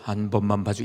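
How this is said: It is said in a stern, severe voice.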